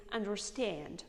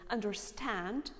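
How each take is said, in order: First: "understand" with the A moved toward E; "understand" as "under-stend"; American A. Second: "understand" with a plain open A; "understand" with "stand" as "stahnd"; British A. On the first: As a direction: raise the last vowel of "understand". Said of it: "understand in American accent". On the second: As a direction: open the last vowel of "understand". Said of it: "in British accent". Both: Shown as a demonstration.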